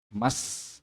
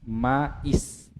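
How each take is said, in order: First: The two words merge with no i sound between. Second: An i sound is heard between ma and s. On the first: The speaker calls it right. "Mas, ah, begitu" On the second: The speaker calls it wrong. "Bukan bukan lagi mais. Tidak, tidak dibaca lagi i-nya"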